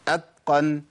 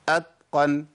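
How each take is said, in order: First: The t sounds voiced, close to a d. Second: The t sounds voiced, close to a d.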